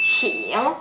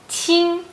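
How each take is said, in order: First: It is said with a low dipping tone. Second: It is said with a high level tone. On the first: It means please. "nada tiga" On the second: It means young. "nada satu"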